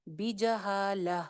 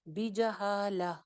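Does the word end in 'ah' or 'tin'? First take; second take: ah; ah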